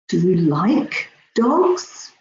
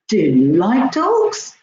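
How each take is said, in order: First: The stress falls on the word like. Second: The stress falls on the word do. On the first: The speaker is surprised by the liking. "I'm really surprised" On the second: The speaker did not know whether the listener likes dogs. "Oh, I wasn't sure. I didn't know that"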